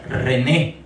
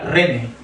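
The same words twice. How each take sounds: First: The stress is on the second syllable. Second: The stress is on the first syllable. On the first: The speaker calls it right. "en la segunda E tiene esa rayita para que tenga el acento" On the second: The speaker calls it wrong. "Si no dijera"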